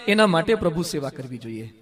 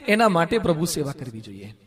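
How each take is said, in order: Both takes have the same delivery.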